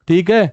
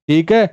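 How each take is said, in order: The two takes are said the same way.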